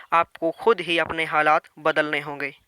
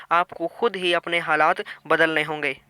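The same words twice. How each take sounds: No difference in how they are said.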